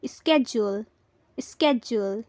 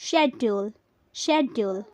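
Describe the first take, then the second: First: "schedule" as SKEJ-ool; hard sk and a j in "schedule"; American pronunciation. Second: "schedule" as SHEJ-ool, opening on sh; no k in "schedule", begin with sh; British pronunciation. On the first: Teacher showing the American English form, "schedule" as SKEJ-ool. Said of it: "American English में बोलना चाहते हैं". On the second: Teacher showing the British form, "schedule" as SHEJ-ool. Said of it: "British में बोलना चाहते हैं". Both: Shown as a demonstration.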